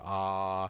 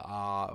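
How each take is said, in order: First: The vowel is drawn out longer. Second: The vowel is held only briefly. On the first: "the second one that I pronounced being longer" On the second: "a shorter vowel"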